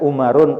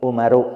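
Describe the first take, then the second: First: The name ends with an added n sound. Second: The name ends on a vowel, without n. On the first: The speaker calls it wrong. "tidak boleh mengatakannya Umarun" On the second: The speaker calls it right. "Harus Umaru, nggak boleh pakai tanwin"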